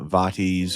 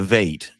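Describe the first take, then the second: First: It is pronounced in a Latin-style way. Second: It is pronounced in an English way. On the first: "more um, Latin inspired" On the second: "an acceptable Anglican uh, English pronunciation"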